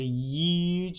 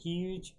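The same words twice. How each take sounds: First: The word begins with a y sound. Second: The word begins with an h sound. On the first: It imitates how someone else says the word. "the former POTUS who said that it would say huge" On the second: It is the usual way to say the word. "instead of huge"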